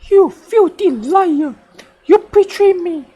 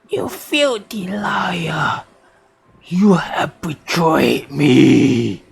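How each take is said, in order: First: It is said in a normal voice. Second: It is said in a deep voice.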